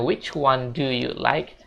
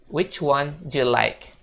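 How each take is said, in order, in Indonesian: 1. Kata 'do' diucapkan penuh dan jelas. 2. Kata 'do' hampir tidak terdengar. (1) "jangan lagi bilang do you like" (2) "tapi bilangnya you like"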